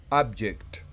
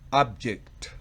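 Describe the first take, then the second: First: The stress is on the first syllable. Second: The same.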